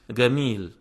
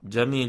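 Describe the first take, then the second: First: The word begins with a hard g sound. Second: The word begins with a j sound. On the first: This is the Egyptian dialect pronunciation. "disebut ga" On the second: This is the standard pronunciation. "mereka tidak menyebut jim"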